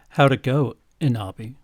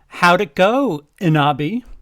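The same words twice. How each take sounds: First: It is said in a deep, low, sultry voice. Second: It is said in a lisping character voice.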